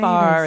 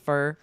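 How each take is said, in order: First: The word is said with a full vowel. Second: The word is said with a reduced vowel. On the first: "So one might say far" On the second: "You're kind of removing the vowel sound"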